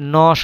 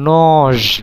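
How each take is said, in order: First: The word ends with a voiceless s sound. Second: The word ends with a voiced z sound. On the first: The speaker calls it right. "নজ না হয়ে নস হচ্ছে" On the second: The speaker calls it wrong. "উচ্চারণ হওয়ার কথা ছিল নজ"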